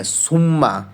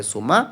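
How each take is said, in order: First: সুম্মা with a long held double m; doubled m. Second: সুমা with one short m; single m. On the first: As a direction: hold the m in সুম্মা, sum-ma. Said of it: "এটা ওটা কি সুম্মা নাকি সুমা". (সুম্মা, ম-তে দ্বিত্ব দিয়ে) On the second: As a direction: say সুমা as su-ma, m not held. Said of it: "মনে মনে শুধু একটা এম ধরো". (সুমা, একটা ম দিয়ে) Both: Shown as a demonstration.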